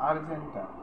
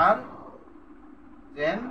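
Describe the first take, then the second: First: Said in the usual way. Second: "Argentum" pulled apart with a long pause; syllable by syllable. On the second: Shown as a demonstration. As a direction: break "Argentum" into separate, drawn-out syllables. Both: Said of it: "দুইটা syllable থেকে".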